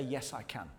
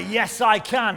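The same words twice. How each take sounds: First: Much softer, lower, offered quietly; soft prompt. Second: Louder, higher, shouted with conviction. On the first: Preacher giving the congregation a quiet first prompt. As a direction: say it gently for the congregation to repeat. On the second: Preacher urging the congregation to shout it back. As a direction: shout it like a rallying cry. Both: Shown as a demonstration.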